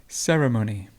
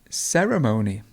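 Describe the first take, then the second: The two takes are said the same way.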